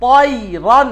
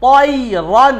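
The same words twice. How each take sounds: Both takes have the same delivery.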